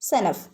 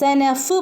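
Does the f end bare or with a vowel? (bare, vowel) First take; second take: bare; vowel. First: The final f ends bare with no vowel. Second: A vowel sound follows the final f. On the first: The speaker calls it right. "ഫഇന് സുക്കൂന്" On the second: The speaker calls it wrong. "സനഫ് പറയരുത്"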